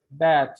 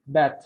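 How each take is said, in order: First: BAD with a long, drawn-out eh vowel; long German E. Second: BAD with a short eh vowel, like "bet"; short German E. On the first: Teacher showing German long E, long vowel in BAD. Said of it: "long E". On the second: Teacher contrasting German short E, short vowel in BAD. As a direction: keep the vowel in BAD brief. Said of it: "if you make it short E". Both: Shown as a demonstration.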